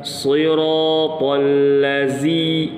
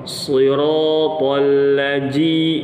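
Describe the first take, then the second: First: The last consonant is a buzzing 'z' sound. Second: The last consonant is a 'j' sound. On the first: "dengan huruf zai" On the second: "dengan jim"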